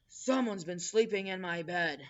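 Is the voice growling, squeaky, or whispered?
growling. It is said in a deep growl.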